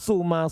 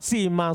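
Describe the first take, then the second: First: The first vowel is a pure u sound. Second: The first vowel is a pure i sound. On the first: "Boleh ikhlas doma" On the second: "Ikhlas kasro"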